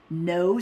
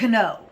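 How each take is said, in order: First: It begins with an N sound. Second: It begins with a K sound. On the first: This is how it is said today. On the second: This is how it was said long ago.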